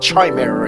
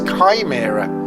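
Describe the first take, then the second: First: The word begins with a 'ch' sound. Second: The word begins with a 'k' sound. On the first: The speaker calls it wrong. "but it's not chimera" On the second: The speaker calls it right. "the ch becomes a K"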